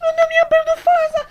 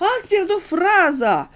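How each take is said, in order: First: Loud "faza" with the r dropped; comic slip, "faza" for "fraza"; wrong "faza". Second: Slow, spelled-out "fraza"; patient, deliberate "frază" with the r; slow correction. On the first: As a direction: blurt "mi-am pierdut faza" missing the r. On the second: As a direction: drag "Ați pierdut fraza" out slowly to correct her. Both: Shown as a demonstration.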